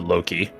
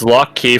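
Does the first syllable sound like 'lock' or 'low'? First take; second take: low; lock. First: The first syllable sounds like 'low'. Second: The first syllable sounds like 'lock'. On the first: It names a trickster god. "you could alternatively pronounce it Loki" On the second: It names a god of traps and locks. "it's lock key for the god of traps"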